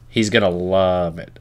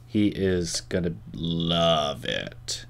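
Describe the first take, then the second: First: Said in the usual way. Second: Very slow and softer, savoring He is gonna love it; mock-seductive promise. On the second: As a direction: draw it out low and teasing. Teasing promise about friend.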